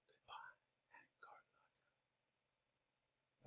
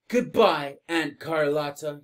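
First: It is said in a whisper. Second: It is said in a normal voice.

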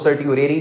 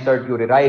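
First: The word ends with an 'ee' sound. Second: The word ends with a 'rye' sound. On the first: "इसको सर्टियोरेरी भी कुछ पढ़ते हैं" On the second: "सर्टियोरे राय भी पढ़ते हैं"

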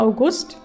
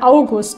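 First: The stress is on the second syllable. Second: The stress is on the first syllable. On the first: It refers to the month. "wenn es der Monat ist" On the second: It refers to a person's name. "Betonung auf der ersten Silbe"

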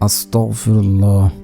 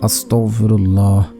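No difference in how they are said.

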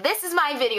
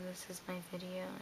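First: The voice is loud, lively and enthusiastic. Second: The voice is flat, quiet and unenthusiastic. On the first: The speaker calls it right. "be like, ... Like that" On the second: The speaker calls it wrong. "Don't be like"

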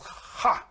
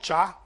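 First: It begins with a throaty h sound. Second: It begins with a ch sound. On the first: The speaker calls it right. "So CHA is ha" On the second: The speaker calls it wrong. "not cha"

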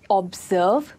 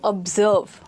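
First: The stress is on the first syllable. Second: The stress is on the second syllable. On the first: The speaker calls it wrong. "We do not say observe" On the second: The speaker calls it right. "Stressed on the second syllable"

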